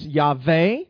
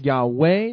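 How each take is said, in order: First: The middle consonant is a V sound. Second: The middle consonant is a W sound.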